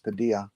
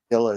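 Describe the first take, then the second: First: The double L is said as a Y sound. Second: The double L is said as an L sound. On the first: The speaker calls it right. "it's Padilla" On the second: The speaker calls it wrong. "not Padilla"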